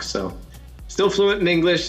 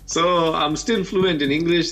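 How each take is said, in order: First: It is spoken with an American accent. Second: It is spoken with a Kenyan accent. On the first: "I can also speak with my American accent" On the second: "This is my Kenyan accent"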